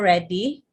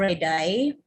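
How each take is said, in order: First: The name is said the Italian way. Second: The name is said in a non-Italian way. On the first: "but in Italy, it's Francesco Redi" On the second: "Others pronounce this as Redi"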